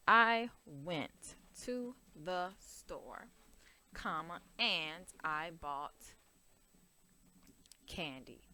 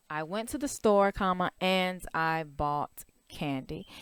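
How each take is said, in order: First: Slow, drawn-out dictation pace. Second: Said in the usual way. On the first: Shown as a demonstration. Teacher dictating a model sentence slowly to students. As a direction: spell it out slowly for the class. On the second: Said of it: "you can see here the comma and".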